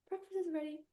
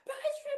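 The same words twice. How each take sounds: First: It is said calmly and gently. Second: It is said anxiously and stressed.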